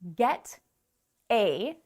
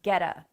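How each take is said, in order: First: The two words are said separately and fully. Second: The two words blend into one weak-ended word. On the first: "Get a becomes getta" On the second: "Get is stronger than a, so it kind of like just absorbs a into it"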